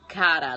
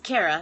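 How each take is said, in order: First: The name is said with Italian vowels. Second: The name is said without Italian vowels. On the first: This is how Italians say the name. "like the Italians do" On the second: This is how the speaker's name is normally said. "it's Kara"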